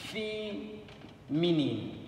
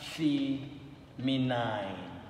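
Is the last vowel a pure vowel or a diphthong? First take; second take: pure vowel; diphthong. First: The last syllable has a short pure vowel. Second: The last syllable has a gliding diphthong vowel. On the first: The speaker calls it right. "Same thing goes with feminine" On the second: The speaker calls it wrong. "not feminine"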